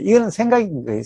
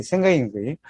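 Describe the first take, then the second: First: 이거는 punched with a falling close; firm teaching point, stress on 이거는; emphatic statement. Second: Quieter, lower repeat of 생각인 거예요; soft echo. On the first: Teacher driving home that 이거는 is the thought. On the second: Teacher quietly echoing his own point to the audience. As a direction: let the point settle, softly. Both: Shown as a demonstration.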